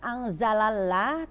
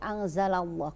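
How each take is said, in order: First: The l sound in Allah is thin and light. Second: The l sound in Allah is thick and heavy. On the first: The speaker calls it wrong. "tidak dibaca anzalallah" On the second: The speaker calls it right. "alifnya ini harus dibaca tebal"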